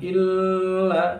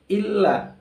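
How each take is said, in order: First: The vowel is held longer than two beats. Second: The vowel is held for just two beats. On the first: The speaker calls it wrong. "jangan illa ya itu salah" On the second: The speaker calls it right. "illa cukup dua ketukan saja ya"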